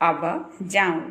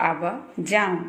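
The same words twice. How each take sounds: No difference in how they are said.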